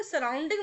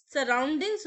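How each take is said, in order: First: सराउंडिंग said without the final s; demonstrating the common mistake सराउंडिंग, no s at the end; wrong pronunciation. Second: सराउंडिंग्स with a clear final s; teacher giving the correct form सराउंडिंग्स with the s; correct pronunciation. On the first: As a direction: drop the s, say सराउंडिंग. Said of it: "सराउंडिंग नहीं होता है". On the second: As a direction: end सराउंडिंग्स firmly on the s sound. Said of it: "सराउंडिंग्स होता है". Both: Shown as a demonstration.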